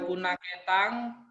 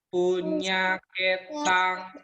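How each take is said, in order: First: The middle consonant sounds like plain 'n'. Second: The middle consonant sounds like palatal 'ny'. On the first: The speaker calls it wrong. "bukan punah ketang" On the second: The speaker calls it right. "Ini lihat punya ketang"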